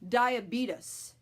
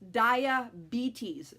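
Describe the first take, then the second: First: The ending sounds like "beat us". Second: The ending sounds like "bees". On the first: The speaker calls it wrong. "it's not diabetes" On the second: The speaker calls it right. "like the B with the stinger"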